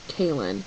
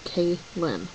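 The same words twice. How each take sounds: First: The name is said smoothly with no break. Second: The name is said with a break inside. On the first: The speaker calls it wrong. "You don't just say Kaylin" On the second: The speaker calls it right. "stick a space in between the name"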